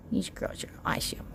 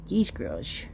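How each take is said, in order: First: Unvoiced quick whisper. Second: Said in the usual way. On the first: Real, not acted. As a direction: whisper it fast. Whispered restart of line.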